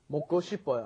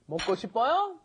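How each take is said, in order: First: The voice falls at the end. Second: The voice rises at the end.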